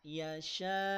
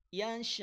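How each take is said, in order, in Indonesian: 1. Bunyi akhirnya dibiarkan mengalir. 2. Bunyi akhirnya terputus mendadak. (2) "Hamzah sukun, putus, berhenti, potong suaranya"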